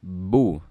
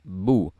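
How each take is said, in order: Both takes have the same delivery.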